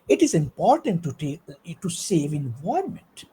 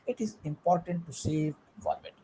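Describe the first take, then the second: First: It is said with lively, varied pitch and emphasis. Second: It is said in a flat, unvaried voice. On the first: The speaker calls it right. "if you speak in this way" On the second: The speaker calls it wrong. "there is no voice modulation"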